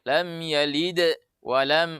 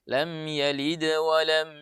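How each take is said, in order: First: The words are split by a stop after yalid. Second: The words flow together without a break. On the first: The speaker calls it wrong. "tidak dibaca seperti itu" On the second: The speaker calls it right.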